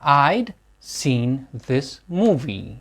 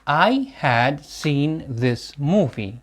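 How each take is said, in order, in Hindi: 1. 'I had' एक ही syllable में छोटा हो जाता है। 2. 'I had' पूरे दो शब्दों की तरह बोला जाता है। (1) "जब हम कॉन्ट्रैक्शंस का यूज करेंगे" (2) "without contractions"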